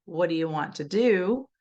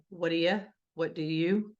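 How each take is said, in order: First: The last "do" full and stressed, the middle "do" reduced; stress final do. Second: "do" shrunk to a light "d" sound; reduced "do". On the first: Teacher contrasting the middle and final "do" for kids. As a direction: lean on the final "do" in "What do you want to do?". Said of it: "then I stress the "do" at the end". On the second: Teacher modelling how "do" sounds mid-sentence. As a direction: say "What do you" with "do" as a quick "d". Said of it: "will sound like "d". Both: Shown as a demonstration.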